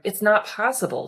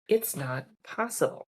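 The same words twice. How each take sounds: First: It is said in a tense, resistant tone. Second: It is said in a calm, settled tone. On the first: It is a complaint against the situation. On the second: It is a calm acceptance of the situation.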